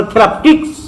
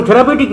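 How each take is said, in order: First: থেরাপটিক্স with no পিউ, ending in টিক্স; correct pronunciation. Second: থেরাপিউটিক said the usual way, থে-রা-পি-উ-টিক, with the পিউ sound; common mispronunciation. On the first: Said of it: "আসল উচ্চারণ হলো থেরাপটিক্স". (সঠিক উচ্চারণ থেরাপটিক্স, পিউ বাদ দিয়ে) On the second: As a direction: say থেরাপিউটিক as most people wrongly say it. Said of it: "উচ্চারণ থেরাপিউটিক নয়". (ভুল উচ্চারণে থেরাপিউটিক, পিউ সহ) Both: Shown as a demonstration.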